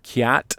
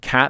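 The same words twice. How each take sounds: First: The vowel is shifted as in a Midwestern accent. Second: The vowel is in a general American accent. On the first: "they'll say cat" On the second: "instead of like saying cat"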